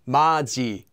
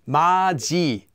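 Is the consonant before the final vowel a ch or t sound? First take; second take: ch; ch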